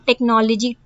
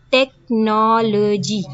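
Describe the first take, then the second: First: Said in the usual way. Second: टेक्नोलॉजी said slowly, syllable by syllable; syllables drawn out. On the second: Shown as a demonstration. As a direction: stretch टेक्नोलॉजी into its four syllables. (टेक्नोलॉजी को syllables में धीरे बोलना) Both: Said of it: "four syllables आपके बन रहे हैं".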